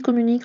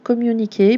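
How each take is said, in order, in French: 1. Le mot est prononcé à la française. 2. Le mot est prononcé à l'anglaise. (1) "ça se lit communique en français" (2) "c'est pour ça qu'ils prononcent ça communiquer"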